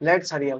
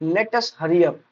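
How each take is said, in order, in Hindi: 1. 'Let us' एक syllable में संकुचित हो जाता है। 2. 'Let us' को दो अलग सिलेबल में बोला जाता है। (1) "लेट्स हरी अप होता है।" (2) "लेट अस हरी अप भी गलत है।"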